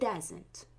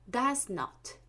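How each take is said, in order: First: The words are contracted into one word. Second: Both words are said in full.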